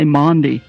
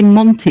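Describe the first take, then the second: First: The middle consonant is a soft d-like sound. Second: The middle consonant is a crisp t sound. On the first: "you say Mondi" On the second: "you don't say Monty"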